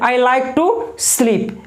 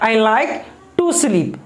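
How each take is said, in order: First: 'Like to' is grouped, with a break before 'sleep'. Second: 'To sleep' is grouped, with a break after 'like'. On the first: The speaker calls it wrong. "ये नहीं पढ़ेंगे" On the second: The speaker calls it right. "ये to sleep अलग है"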